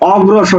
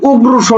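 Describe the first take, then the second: First: The first vowel is an open 'aw' sound. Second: The first vowel is a closed 'o' sound. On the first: The speaker calls it right. "আমরা অগ্রসর বলি অ অ" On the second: The speaker calls it wrong. "আমরা কিন্তু উগ্রসর বলি না"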